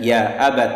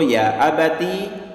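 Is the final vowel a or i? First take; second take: a; i. First: The word ends in an 'a' vowel. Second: The word ends in an 'i' vowel. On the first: "diberi harokat fathah" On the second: "diberi harokat kasrah"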